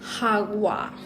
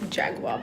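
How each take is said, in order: First: The word begins with an h sound. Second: The word begins with a j sound. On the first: The speaker calls it right. "I found out what the actual pronunciation is. Um, it's Hagua" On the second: The speaker calls it wrong. "So it's not Jaguar"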